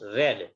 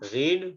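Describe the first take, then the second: First: The vowel is a short 'e' sound. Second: The vowel is a long 'ee' sound. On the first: It is the past tense form. "Past form में बोला जाता है रेड" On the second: It is the present tense form. "यहाँ पर रीड है"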